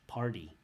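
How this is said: It is said in an American accent, t like d. "American English party"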